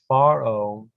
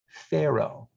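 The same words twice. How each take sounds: First: The name is pronounced the Hebrew way. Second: The name is pronounced the English way. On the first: "Pharaoh is the Hebrew pronunciation" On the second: "what we in English say Pharaoh"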